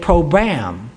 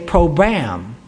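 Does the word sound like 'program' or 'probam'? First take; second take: probam; probam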